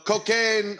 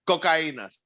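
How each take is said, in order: First: The word is said with English pronunciation. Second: The word is said with Spanish pronunciation. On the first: The speaker calls it wrong. "Sorry, I mispronounced" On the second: The speaker calls it right. "Sorry, I mispronounced"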